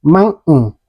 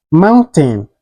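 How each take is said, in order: First: MOUNTAIN with the T swallowed, "moun'n". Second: MOUNTAIN with a clear "ten" ending; T fully pronounced. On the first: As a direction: say "mountain" American style, without a released T. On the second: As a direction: say "mountain" sounding the T. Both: Shown as a demonstration. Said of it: "is pronounced like".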